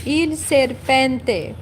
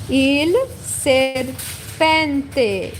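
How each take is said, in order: First: "il serpente" said more fluidly, a bit slow; a more natural "il serpente"; smoother repeat. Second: "il serpente" stretched out syllable by syllable; slow it right down: "il serpente"; very slow demo. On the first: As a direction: join up "il serpente" after the slow take. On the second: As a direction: model "il serpente" at a crawl. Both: Shown as a demonstration. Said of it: "In Italian".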